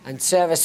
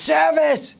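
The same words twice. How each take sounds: First: Said in the usual way. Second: High, loud call across the restaurant; shout. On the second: Real, not acted. Told to shout louder, calling service to the kitchen loud. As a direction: bellow it so the whole room hears. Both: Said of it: "No, shout louder".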